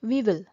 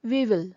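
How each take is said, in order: The two takes are said the same way.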